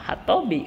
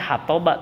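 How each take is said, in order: First: The word ends with an 'i' vowel. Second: The word ends with an 'a' vowel. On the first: The speaker calls it right. "hatobi gitu" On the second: The speaker calls it wrong. "dibaca hatoba terus kalau diwasol kan itu salah"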